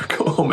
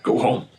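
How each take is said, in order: First: Laughing repeat. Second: Said in the usual way. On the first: Shown as a demonstration. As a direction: Go home said with a laugh, higher. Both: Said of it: "just go home".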